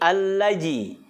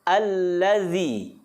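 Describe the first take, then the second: First: The middle consonant is a j sound. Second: The middle consonant is a voiced th sound. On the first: The speaker calls it wrong. "Apalagi allaji" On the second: The speaker calls it right. "Yang betul adalah allazi. Ujung lidah sentuhkan ke dinding dua gigi seri kita yang atas"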